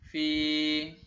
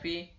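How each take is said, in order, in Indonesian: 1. Vokalnya ditahan sedikit lebih lama. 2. Vokalnya pendek. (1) "tapi dipanjangkan sedikit" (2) "tidak dibaca fi"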